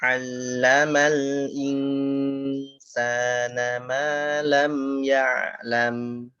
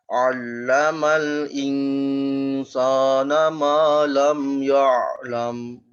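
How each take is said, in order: First: All the letters are pronounced thin and light. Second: All the letters are pronounced thick and heavy. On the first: The speaker calls it right. "ini huruf dia tipis semua nih" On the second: The speaker calls it wrong. "Wah, tebal semua"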